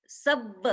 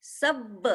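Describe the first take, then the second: No difference in how they are said.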